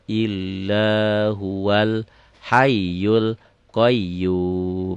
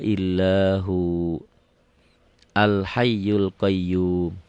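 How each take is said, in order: First: Huwa runs straight into al without a break. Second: It breaks after huwa and restarts with al. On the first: "umumnya disambung" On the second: "Kalau diputuskan, kalau diputus di sini"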